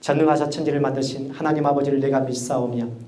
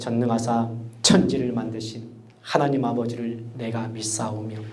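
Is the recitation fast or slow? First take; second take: fast; slow. First: It is recited at a fast pace. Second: It is recited at a slow pace. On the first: Young listeners will stay engaged. The speaker calls it right. "좀 스피드 있게" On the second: Young listeners will get frustrated. The speaker calls it wrong. "이렇게 가면 애들 이제 미치는 거예요"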